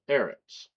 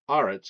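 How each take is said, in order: First: The first vowel is an 'eh' sound. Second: The first vowel is an 'ah' sound. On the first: "instead of" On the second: "it is pointed with the ah"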